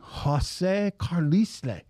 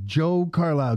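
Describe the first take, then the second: First: The first name has two syllables. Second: The first name has one syllable. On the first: The reader assumed a Spanish name. The speaker calls it wrong. "They're adding syllables" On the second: This is how the owner says his name. The speaker calls it right. "I'm saying Joe Carlisle"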